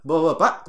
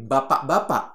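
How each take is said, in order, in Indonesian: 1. Suku katanya dipotong-potong dan diucapkan pendek. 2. Setiap suku kata diucapkan dengan penuh dan jelas.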